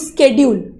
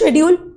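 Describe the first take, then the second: First: The word begins with an 'sk' sound. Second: The word begins with an 'sh' sound. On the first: This is how the speaker says it. "मैं बोलती हूँ" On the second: This is how the listener says it. "आप बोलते हो"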